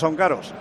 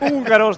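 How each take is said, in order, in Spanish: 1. Se dice con la pronunciación aragonesa local. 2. Se dice con la pronunciación estándar del español. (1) "porque hablamos de esa manera, los maños" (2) "en lugar de decir húngaros"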